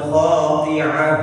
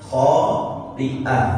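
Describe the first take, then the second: First: The middle has no glottal stop. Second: The middle has a clear glottal stop. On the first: The speaker calls it wrong. "bukan khati'ah" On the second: The speaker calls it right. "pakai hamzah"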